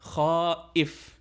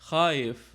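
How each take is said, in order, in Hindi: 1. हर आवाज़ पूरी तरह और साफ़ बोली जाती है। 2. बीच की आवाज़ें जल्दी-जल्दी आपस में मिला दी जाती हैं। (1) "वैसे तो लफ्ज़ सही यही है" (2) "जब इसको तेज़ बोला जाता है"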